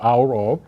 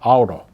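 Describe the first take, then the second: First: Both words are said fully and separately. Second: The words are run together quickly and reduced. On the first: "instead of" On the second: "they pronounce so quickly"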